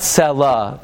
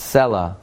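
First: "Selah" punched on its last syllable; "Selah" with the accent wrongly on "lah"; mispronounced stress. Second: "Selah" stressed on its first syllable; "Selah" with a light, falling "lah"; correct stress. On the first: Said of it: "It's not Selah". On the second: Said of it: "it's Selah". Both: Shown as a demonstration.

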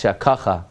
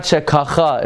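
First: "Shekacha" stressed on the middle "ka"; "Shekacha" with an unstressed final "cha"; correct stress. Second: "Shekacha" punched on the final "cha"; "Shekacha" with the accent wrongly at the end; mispronounced stress. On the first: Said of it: "it's Shekacha". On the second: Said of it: "It's not Shekacha". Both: Shown as a demonstration.

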